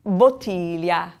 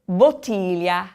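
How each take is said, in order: First: Bottiglia once more, slow; slow repetition of bottiglia; repeat for class. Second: Bottiglia, slow and clear; teacher pronouncing bottiglia slowly; model word. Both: Shown as a demonstration. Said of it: "teacher models the word".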